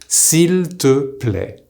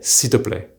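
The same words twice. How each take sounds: First: The 'il' vowel is fully pronounced. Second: A faint 'e' vowel remains after the s. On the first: "The correct way to say please using tu" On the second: "with a bit of e sound in there"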